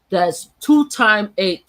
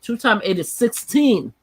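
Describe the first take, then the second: First: Two time eight said slowly, each word stressed; slow emphatic. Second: Said in the usual way. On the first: Real, not acted. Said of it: "spells out the age slowly". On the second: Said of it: "repeats with the answer".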